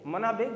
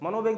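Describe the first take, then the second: First: The second syllable has an 'a' vowel. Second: The second syllable has an 'o' vowel. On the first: The speaker calls it right. "सच में मना वेग होना चाहिए" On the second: The speaker calls it wrong. "बार बार मैं बोल रहा हूं"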